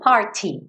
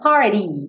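First: It is said without an American accent. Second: It is said with an American accent.

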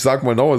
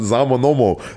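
First: It is said in standard High German. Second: It is said in Saarland dialect.

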